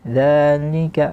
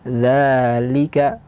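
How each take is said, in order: First: The li syllable sounds nasal, like ni. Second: The li syllable is clear, not nasal. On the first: The speaker calls it wrong. "Li dibaca seperti ni, dia masuk ke hidung" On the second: The speaker calls it right. "tapi bacaannya adalah dzalika"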